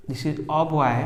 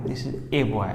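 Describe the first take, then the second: First: "a" said as an open "uh"; article as "uh". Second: "a" said as the letter name "ay"; article as "ay". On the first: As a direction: pronounce "a" as "uh" before boy. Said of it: "होना चाहिए this is a boy". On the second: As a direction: pronounce "a" to rhyme with "day". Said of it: "इस a boy हम लोग generally life में बोलते हैं". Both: Shown as a demonstration.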